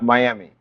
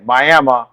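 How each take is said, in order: First: It is said the Florida way. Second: It is said the local Oklahoma way. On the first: The speaker is not from around this area. The speaker calls it wrong. "not Miami" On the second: The speaker is from around this area. The speaker calls it right. "If you want to know if someone is from around this area, they're going to say Miami"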